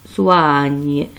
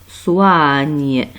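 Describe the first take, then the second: No difference in how they are said.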